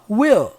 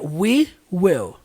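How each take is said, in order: First: Words merged into one short syllable. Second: Two separate words, each said in full. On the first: "ele junta tudo ... E como é que fica essa junção? Assim" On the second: "Se eu falasse essas palavras separadas"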